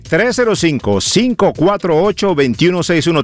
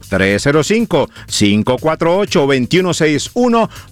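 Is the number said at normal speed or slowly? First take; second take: normal speed; slowly. First: The number is said at normal speed. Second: The number is said more slowly.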